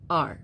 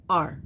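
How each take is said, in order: First: The word is said as one syllable. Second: The word is said as one syllable.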